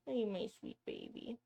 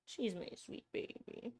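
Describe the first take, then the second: First: Quiet cooing question. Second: Whispered pet talk. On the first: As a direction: coo it aloud to the pet. Cooing to her pet. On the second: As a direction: breathe it softly to the pet. Whispering over her pet. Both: Real, not acted.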